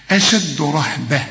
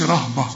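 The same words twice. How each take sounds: First: أشد رهبة with the dal bounced; correct reading. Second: رهبة with a light flat ra; wrong way. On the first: Teacher models qalqala, recited. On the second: Teacher imitates the mistake, mock wrong. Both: Shown as a demonstration. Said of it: "ما تقولش رهبة".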